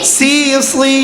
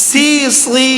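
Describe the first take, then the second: Both takes have the same delivery.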